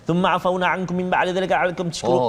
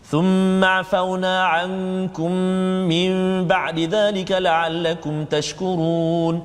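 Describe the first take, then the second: First: It is recited very fast, swallowing some letters. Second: It is recited moderately fast, keeping every sound.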